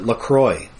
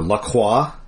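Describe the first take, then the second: First: The name is pronounced with English sounds. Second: The name is pronounced with French sounds.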